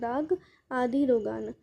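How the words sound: The words are split apart with small pauses. "आपको words को तोड़ तोड़ के पढ़ना है"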